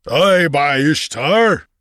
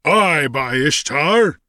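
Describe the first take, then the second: First: Slow, high booming giant; boomed. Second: Slow, high bull-like bellow. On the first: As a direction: boom it out like a giant. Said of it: "boomed the giant". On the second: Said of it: "bellowed a bull-like voice". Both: A narrator's reading.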